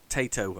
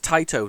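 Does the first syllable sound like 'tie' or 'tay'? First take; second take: tay; tie. First: The first syllable sounds like 'tay'. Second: The first syllable sounds like 'tie'. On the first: The speaker calls it wrong. "not Tato, as I keep kept on saying" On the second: The speaker calls it right. "so it's Taito"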